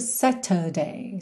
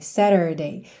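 First: It has a crisp T and no R. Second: It has a flapped T and curled R.

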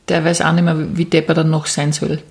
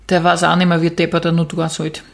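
First: It is said in fairly standard German. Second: It is said in broad Upper Austrian dialect. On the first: The speaker calls it wrong. "so sagt sie es nicht" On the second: The speaker calls it right. "Kannst du es bitte auf Oberösterreichisch sagen?"

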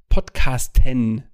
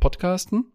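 First: The final syllable is said clearly and stressed. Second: The final syllable is said casually and indistinctly. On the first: The device plays the intended podcast. The speaker calls it right. "dann muss ich das sehr deutlich sprechen" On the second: The device plays a different podcast. The speaker calls it wrong. "dann wird der andere Podcast gespielt, weil das EN nicht richtig verstanden wird"

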